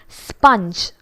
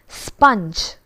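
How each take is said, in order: The two takes are said the same way.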